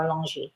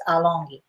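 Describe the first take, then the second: First: "Alongi" with a soft g, like zh; soft g pronunciation. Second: "Alongi" with a hard g; hard g pronunciation. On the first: Host trying a viewer's name, "Alongi" with soft g. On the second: Host trying a viewer's name, "Alongi" with hard g. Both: Shown as a demonstration. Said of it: "it spells as if it's Alongi or Alongi".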